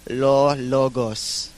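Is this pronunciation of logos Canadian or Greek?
Greek. It is said with a Greek accent. "but then my parents say it"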